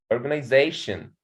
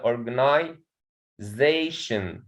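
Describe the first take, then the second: First: Said in the usual way. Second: "organization" slowly split before "zation"; slow teaching "organization": organi... ZAtion; stress on fourth syllable. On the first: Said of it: "there is a primary stress". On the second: Shown as a demonstration. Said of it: "there is a primary stress here in they".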